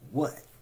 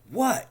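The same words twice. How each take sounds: First: It sounds impatient and irritated. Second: It sounds sharp and angry. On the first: The speaker wants the other person to hurry up. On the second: The speaker resents being called upon. "Angry for being called upon"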